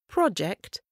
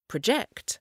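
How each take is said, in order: First: The stress is on the first syllable. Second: The stress is on the second syllable. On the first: It is a noun. "Quand le mot est accentué sur la première syllabe, c'est un nom" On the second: It is a verb. "Quand le même mot est accentué sur la deuxième, c'est un verbe"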